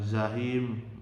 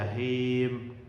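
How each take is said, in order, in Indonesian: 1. Kata ini diawali dengan bunyi Z. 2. Kata ini diawali dengan bunyi J. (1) "bukan zahim" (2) "nah ini baru ja ya, jahim"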